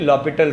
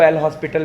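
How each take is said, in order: First: It is said as 'lopital' with no h. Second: It is said as 'el hospital' with an h. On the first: The speaker calls it right. "ये actually लॉपिटल rule है" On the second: The speaker calls it wrong. "वो wrongly pronounce होता है"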